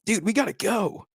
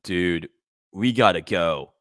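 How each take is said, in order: First: Much higher, put-on bro voice; hammed-up panicked friend; mimicking a frantic bro; impression of Steven. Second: A flatter, calmer bro; correcting the impression. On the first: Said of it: "I'm trying to do an impression of him". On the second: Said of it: "It's more like".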